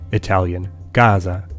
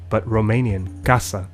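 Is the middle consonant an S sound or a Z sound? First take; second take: Z; S. First: The middle consonant sounds like a Z. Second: The middle consonant sounds like an S. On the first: "a single S comes to sound like Z between two vowels" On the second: "aside from Spanish and Romanian"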